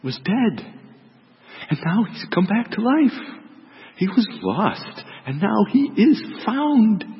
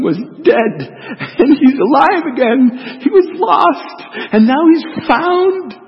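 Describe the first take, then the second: First: Gentle, slow, lifting higher on the good news; tender plea. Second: Loud, high, laughing through the words, last lines slow; laughing with joy. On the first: Father gently pleads with son. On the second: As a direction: laugh out the news of the son's return. Father rejoicing over returned son. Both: Acted.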